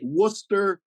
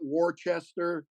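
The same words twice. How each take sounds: First: It is said the way locals say it. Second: It is said the way outsiders say it. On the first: The speaker has really been there. The speaker calls it right. "you pronounce it correctly" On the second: The speaker has not been there. The speaker calls it wrong. "not Worcester"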